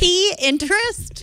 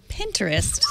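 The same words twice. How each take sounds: First: The first syllable sounds like the letter P. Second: The first syllable sounds like the word pin. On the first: The speaker calls it wrong. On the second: The speaker calls it right.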